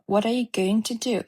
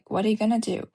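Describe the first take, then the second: First: Going to is said fully and carefully. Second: Going to is reduced to gonna in fast speech.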